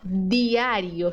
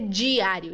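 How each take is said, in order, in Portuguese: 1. Começa com um d suave e simples. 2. Começa com um som africado, parecido com dj. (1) "Diário, suave" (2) "Não vai dizer diário. Isso aí é portunhol"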